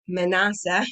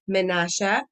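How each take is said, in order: First: The name is said with an English pronunciation. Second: The name is said with a Hebrew pronunciation. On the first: "in English" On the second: "in the Hebrew pronunciation"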